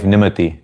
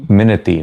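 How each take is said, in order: First: Nimati with the N before the M, said as NIH-muh-tee; Nimati, the mixed-up NIH-muh-tee version of the name; wrong name said first. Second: Minati with the M first, said as MIN-uh-tee; corrected name. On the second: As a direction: fix it to Minati, MIN-uh-tee, a little firmer. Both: Real, not acted. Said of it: "Minati, not Nimati".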